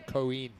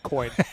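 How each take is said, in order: First: It is said as two syllables, stressing the i. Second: It is said as a single English-style syllable. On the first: "the accent's on the I. So if you want to say it the way the Spanish say it" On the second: "you won't be the first person to call it coin"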